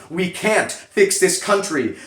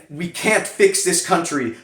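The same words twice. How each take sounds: The two takes are said the same way.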